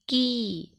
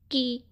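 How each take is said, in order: First: की pressed a little and held long on the ee; long pressed kee. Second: की clipped short and quick with a short i. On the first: Teacher showing children the long ee sign, pressed and long. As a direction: lean on की and stretch the vowel. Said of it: "थोड़ा दबाव डालकर पढ़ेंगे, है ना, और लंबे स्वर में पढ़ेंगे". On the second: Teacher contrasting the short ee sign for children, quick. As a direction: say की fast and short, the small ee. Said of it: "मतलब इसको जल्दी में पढ़े थे". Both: Shown as a demonstration.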